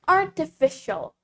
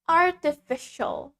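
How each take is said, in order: The two takes are said the same way.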